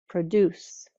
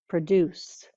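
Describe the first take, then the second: Both takes have the same delivery.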